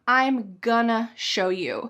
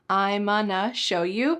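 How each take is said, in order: First: Going to becomes gonna, with the g sound. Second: Going to becomes onna, without the g sound. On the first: "Sometimes we say, I'm gonna" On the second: "cut off the G"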